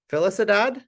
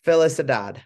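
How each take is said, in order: First: Felicidad? asked high with a rising question; asking name. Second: Felicidad said flat and wrong; mispronounced name. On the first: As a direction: check Felicidad with a questioning rise. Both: Shown as a demonstration. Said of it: "maybe you say".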